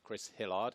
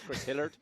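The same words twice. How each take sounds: First: The name is said in a standard accent. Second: The name is said in a Somerset accent. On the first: "goes by the name of" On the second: "depending where he grows up and where he grew up"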